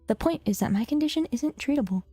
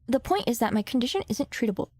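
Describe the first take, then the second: First: It is read in a put-on character voice. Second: It is read in an ordinary, natural voice. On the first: "I'm gonna try it again" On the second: "I can't do that voice no more"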